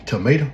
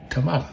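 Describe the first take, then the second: First: "tomato" with a long AY in the middle; the tuh-MAY-toe version of "tomato"; standard pronunciation. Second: "tomato" with a broad AH in the middle; the tuh-MAH-toe version of "tomato"; alternative pronunciation. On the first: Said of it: "you say tomato". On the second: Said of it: "I say". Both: Shown as a demonstration.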